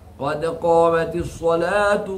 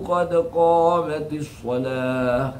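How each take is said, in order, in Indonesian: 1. Kata terakhir berakhir dengan bunyi t. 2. Kata terakhir berakhir dengan bunyi h.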